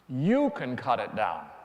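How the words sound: The word 'you' is strongly stressed. The gardener himself will not cut it down. "Not me"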